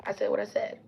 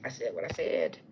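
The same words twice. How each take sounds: First: Higher, rising at the end; high defiant take. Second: Low defiant take. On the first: Repeating her catchphrase to viewers, higher rising version. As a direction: lift it up, teasing defiance. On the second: Repeating her catchphrase to viewers, low defiant version. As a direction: drop it low and flat with finality. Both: Shown as a demonstration.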